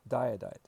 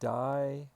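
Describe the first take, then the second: First: The two i vowels are merged into one. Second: The two i vowels are said separately. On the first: The speaker calls it right. "Smush them together" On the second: The speaker calls it wrong. "Too many I's"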